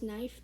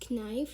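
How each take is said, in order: First: The word begins with a silent K. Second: The word begins with a sounded K. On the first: The speaker calls it right. "you pronounce it as knife because the K is silent" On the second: The speaker calls it wrong. "you don't pronounce it as knife"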